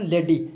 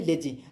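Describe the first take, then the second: First: लेडी said with a hard d sound, as in lady; a mistaken लेडी with a clear d; misread word. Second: लेजी said with a j sound, as in lazy; a corrected लेजी with a soft j; corrected word. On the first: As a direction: slip into saying लेडी, d not j. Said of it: "sorry लेडी नहीं". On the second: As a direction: fix it to लेजी, j not d. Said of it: "sorry लेडी नहीं, लेजी". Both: Real, not acted.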